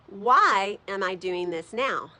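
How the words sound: The stress is on the word why.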